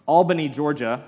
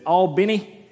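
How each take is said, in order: First: Said in the usual way. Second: Put-on "Albany" in a louder, higher Georgia accent; Georgian pronunciation. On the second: Imitating his friend from Georgia, Georgian accent on "Albany". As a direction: say "Albany" like a Georgia native, pitched up. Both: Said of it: "or as he says it".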